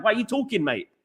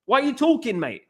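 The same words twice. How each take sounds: First: Mock challenge. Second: Higher, pointed why are you talking, mate; scornful challenge. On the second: Pretend. Telling Jamie Carragher to stop talking, scornful. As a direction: put the pundit down with scorn. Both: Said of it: "That's what I would say to him".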